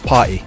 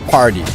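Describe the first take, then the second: First: The T is a glottal stop. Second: The T is a soft, D-like flap. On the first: This is the speaker's original British accent. "I would like to T glottal stop" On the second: This is the American way of saying it. "like a more like a D rolled R type, like a soft T"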